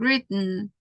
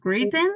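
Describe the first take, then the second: First: The middle t is a glottal stop. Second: The middle t is a full t sound. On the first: The speaker calls it right. "is the glottal stuff" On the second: The speaker calls it wrong. "It's not written"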